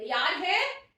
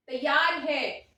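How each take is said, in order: First: "तैयार है" as a question, lifted at the end; rising question. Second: "तैयार है" stretched and loud, falling at the end; falling answer. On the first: Teacher checking the class is ready, "तैयार है" as rising question. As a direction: ask "तैयार है" with a high rising tune. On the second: Teacher confirming for the class, "तैयार है" as falling answer. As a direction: answer "तैयार है" slowly and firmly, tune dropping. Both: Pretend.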